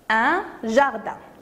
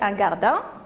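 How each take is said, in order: First: The word starts with a soft zh sound. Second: The word starts with a hard g sound. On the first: The speaker calls it right. "on cherche le son J" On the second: The speaker calls it wrong. "si on va écrire la lettre J, on va prononcer un jardin. Et c'est faux"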